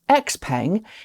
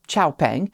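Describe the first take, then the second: First: The name begins with the English letter X. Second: The name begins with the Chinese syllable 'xiao'. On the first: This is the company's official name for Western markets. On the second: This is the original Chinese form of the name.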